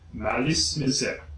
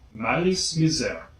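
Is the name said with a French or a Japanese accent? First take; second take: French; French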